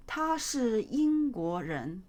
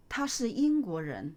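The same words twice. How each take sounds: First: Slow model reading. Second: Said in the usual way. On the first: Shown as a demonstration. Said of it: "teacher models sentence slowly". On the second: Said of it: "teacher repeats at normal speed".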